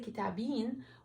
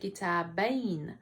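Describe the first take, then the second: First: The ya is pronounced as a long vowel. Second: The ya is pronounced as a consonant. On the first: The speaker calls it wrong. "we won't say" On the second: The speaker calls it right. "the ya is pronounced as a letter, not a long vowel"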